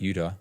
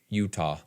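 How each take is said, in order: First: The middle T is dropped or swallowed. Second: The middle T is clearly pronounced. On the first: The speaker calls it wrong. "It's not Utah" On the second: The speaker calls it right. "but it's like Utah"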